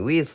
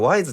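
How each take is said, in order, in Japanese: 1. この単語は柔らかい 'th' の音で終わります。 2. この単語はブーンと震える 'z' の音で終わります。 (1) "With の方が正しいようです" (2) "どうやらWise っていう発音ではないらしいですね"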